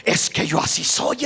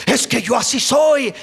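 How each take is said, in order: First: Low, whispered shrug of an excuse. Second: Said in the usual way. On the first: Retold or imitated. A brother excusing his temper, whispered and lower. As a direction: breathe it out like a believer excusing himself. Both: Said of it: "muchos hermanos aún dicen".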